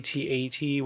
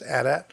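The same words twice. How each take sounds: First: It is spelled out letter by letter. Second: It is said as two short words. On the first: The speaker calls it wrong. "which is the wrong way to say it" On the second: The speaker calls it right. "It is pronounced AT-AT"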